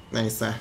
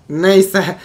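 First: Low, soft "neyse"; subdued resignation. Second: Loud, punched "neyse"; emphatic dismissal. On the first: Gamer shrugging off a failed move, subdued. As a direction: let it drop quietly. Shrugs off a mishap, first take. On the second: Gamer shrugging off a failed move, loud and emphatic. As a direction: brush it off forcefully. Repeats it, louder second take. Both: Real, not acted.

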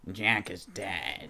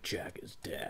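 First: Low, slow, drawn-out character voice; Revengeance voice. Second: Hushed, whispered mimicry; brooding game-character imitation. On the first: Retold or imitated. Asking how his old game voice would feel, slow low imitation. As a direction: stretch it out in a low mock-tough voice. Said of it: "like, his Revengeance voice". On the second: Imitating the game character's grave line, hushed whisper. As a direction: whisper it low, under the breath. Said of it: "He's like".

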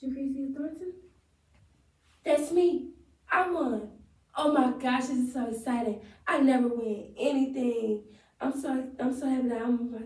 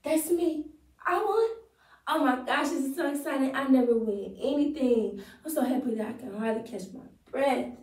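First: Lightly acted joyful winner; thrilled winner, higher on the first lines; monologue take. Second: Higher, brighter overjoyed winner; monologue take. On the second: Acted. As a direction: gush with higher joy on That's me and I won. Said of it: "All right, let's go".

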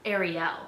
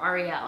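First: "Ariel" with an AIR first syllable; Ariel, first pronunciation. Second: "Ariel" with an AH sound first; Ariel, alternative pronunciation. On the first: Naming the Little Mermaid princess, "Ariel" said AIR-ee-el. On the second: Offering another way to say the mermaid's name, "Ariel" as AR-ee-el. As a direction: say "Ariel" as AR-ee-el, opening like "are". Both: Shown as a demonstration. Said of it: "however you say it".

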